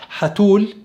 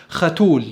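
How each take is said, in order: First: حتول opening on a pharyngeal h; drawn-out حتول with a smooth ح. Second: ختول opening on a rasping kh; drawn-out ختول with a rough خ. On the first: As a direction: start حتول with the Arabic throat h. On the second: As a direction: start ختول with a scraped kh. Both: Shown as a demonstration. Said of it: "فده فرق في النطق".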